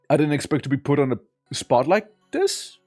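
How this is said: The voice rises at the end.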